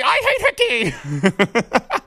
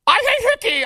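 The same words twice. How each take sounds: First: Slow, laughing through the words. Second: Much higher, louder hammed-up yell; mock announcer shout. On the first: Retold or imitated. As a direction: crack up while repeating it. Same words, repeated while laughing. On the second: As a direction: shout it like a big home run call. Mock broadcaster call continues.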